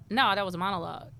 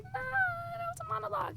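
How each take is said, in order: First: Said in the usual way. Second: Much higher, soft, sing-song brush-off; dismissive mock reply. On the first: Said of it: "And I'm just like". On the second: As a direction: wave it away in a high silly voice. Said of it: "And I was just like".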